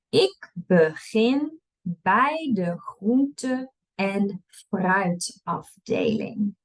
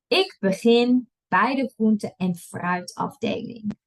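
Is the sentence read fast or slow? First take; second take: slow; fast. First: It is read at a slow pace. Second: It is read at a fast pace. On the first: "I'll read it slow first" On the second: "and then I'll read it fast"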